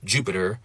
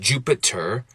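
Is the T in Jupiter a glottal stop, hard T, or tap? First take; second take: tap; hard T. First: The T is a quick tap. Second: The T is a full, hard stop. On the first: "I can make it a tap" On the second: "I can make it a hard T"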